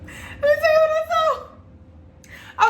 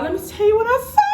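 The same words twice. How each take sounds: First: Very high, drawn-out repeat of the reveal; dramatic squeal. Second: Quick, rising high on the last words; dramatic build-up. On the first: Vlogger repeats her teaser to viewers in a high, dramatic squeal. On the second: Vlogger teases her discovery to viewers, dramatic and rising. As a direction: tease the reveal, voice climbing high and louder. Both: Real, not acted.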